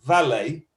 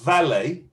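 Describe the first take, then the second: Both takes have the same delivery.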